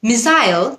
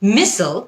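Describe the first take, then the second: First: It is said with a British pronunciation. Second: It is said with an American pronunciation. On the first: "British উচ্চারণ" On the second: "American উচ্চারণ"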